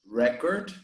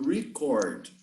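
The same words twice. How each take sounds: First: The stress is on the first syllable. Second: The stress is on the second syllable. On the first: It names a thing, the noun. "the noun is always stressed in the first syllable. So we say record" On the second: It names an action, the verb. "you have the verb to record"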